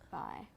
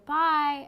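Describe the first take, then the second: First: The voice ends low and flat. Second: The voice ends high and bright.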